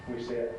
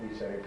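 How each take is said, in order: No difference in how they are said.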